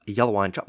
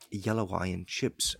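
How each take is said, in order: First: Yellow eye and chop with chop said like chop, not chips, a bit louder; mock Kiwi chop. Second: Yellow eye and chips said slowly and softer, chips with a clear short i; slow, careful correct version of chips; proper Kiwi chips. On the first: Comic repeating the outsiders' version of the Kiwi order, mock accent. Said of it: "people think that we say it". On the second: Shown as a demonstration. Comic showing how New Zealanders really say their takeaway order, slow and soft. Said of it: "And you say".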